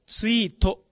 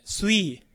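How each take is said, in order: First: スイート with a full "to" at the end; katakana final vowel. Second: Sweet ending on a long "ee", t dropped; dropped final consonant. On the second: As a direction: say "sweet" as swee. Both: Shown as a demonstration. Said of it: "じゃなくて".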